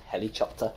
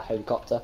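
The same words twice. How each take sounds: First: "helicopter" with a CH sound, "heli-chopter"; imitated slip, "helicopter" with "chop" in it; mispronounced word. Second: Said in the usual way. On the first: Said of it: "he tried to speak and he said". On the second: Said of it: "said helicopter instead of helicopter".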